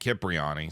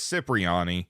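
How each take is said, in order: First: It begins with a k sound. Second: It begins with an s sound. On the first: "at one point" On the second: "we mostly know it as"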